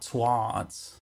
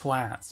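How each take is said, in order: First: The consonant before the s sounds like d. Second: The consonant before the s is a clear t. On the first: The speaker calls it wrong. "not twards" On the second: The speaker calls it right. "It's pronounced twats"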